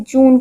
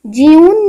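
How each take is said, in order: First: जून said as plain joon; जून with a clean long oo, no glide; correct joon. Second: जून said as jyoon with a y glide; जून as the mistaken jyoon; wrong jyoon. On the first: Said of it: "हमने जून कहा है". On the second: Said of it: "हमने कभी जून नहीं कहा". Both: Shown as a demonstration.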